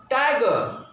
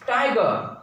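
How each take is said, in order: Both takes have the same delivery.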